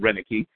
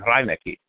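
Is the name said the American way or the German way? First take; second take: American; German. First: The name is said with a flattened American pronunciation. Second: The name is said with a German pronunciation. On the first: The speaker calls it wrong. "Americans who flattened out the pronunciation and started calling people Reineke" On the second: The speaker calls it right. "would be the proper German pronunciation"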